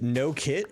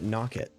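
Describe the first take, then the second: First: The first syllable sounds like 'no'. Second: The first syllable sounds like 'knock'. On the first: "is it no kit" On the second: "or is it knock it? Like like the Rainbow Six operator knock"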